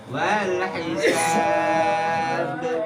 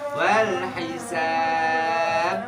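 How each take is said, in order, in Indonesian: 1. Bunyi akhir langsung dilepas tanpa ditahan. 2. Bunyi akhir ditahan sebelum dilepas. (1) "Nempel langsung turun" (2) "Udah salah bacanya"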